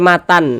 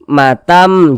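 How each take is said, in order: First: The word ends with an n sound. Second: The word ends with an m sound. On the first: The speaker calls it wrong. "jangan dibaca matan" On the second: The speaker calls it right. "rahmatam dibaca matam"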